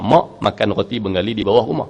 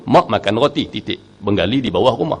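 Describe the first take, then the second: First: It is said without a pause after roti. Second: It is said with a stop after roti.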